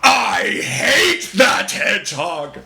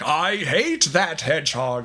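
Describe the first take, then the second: First: The line is screamed at full volume. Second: The line is said at a normal, low-effort level. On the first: Full effort went into it. "screaming at the top of my lungs" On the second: Not much effort went into it. "it was the first time I did it"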